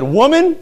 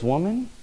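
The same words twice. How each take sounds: First: Loud, much higher, mouthy retort to mother; sassy disrespectful child. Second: Softer, tender "Woman," said kindly; gentle and respectful. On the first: Pretend. Child talking back to his mother, loud and sassy. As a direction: snap "Woman," back at her like a rude kid. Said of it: "probably smack him". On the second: Retold or imitated. Jesus answering his mother, soft and respectful. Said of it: "very gently and with respect".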